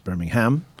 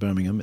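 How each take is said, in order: First: Birmingham is said the American Southern way. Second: Birmingham is said the British way. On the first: This names the city in Alabama. The speaker calls it right. "I'm trying to say that in the right accent" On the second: This names the English city, not the Alabama one. The speaker calls it wrong. "it's not Birmingham"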